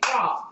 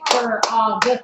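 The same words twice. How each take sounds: First: The word is said as one short syllable. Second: The word is drawn out into two syllables. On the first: The speaker calls it right. "You just say frog" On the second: The speaker calls it wrong. "We don't say frog when you talk"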